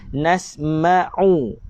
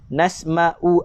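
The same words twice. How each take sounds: First: The middle consonant is a deep throat sound. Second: The middle consonant is a glottal stop. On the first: The speaker calls it right. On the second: The speaker calls it wrong. "Itu kalau kita baca dengan hamzah"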